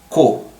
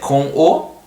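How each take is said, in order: First: The two words merge into one short syllable. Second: The two words are said as separate syllables. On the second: "you see that com o"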